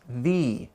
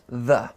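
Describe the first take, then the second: First: The vowel is a clear ee sound. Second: The vowel is a short, weak uh sound. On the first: "if the next word begins in a vowel sound, it's pronounced the" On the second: "If the next word begins in a consonant sound, it's pronounced the"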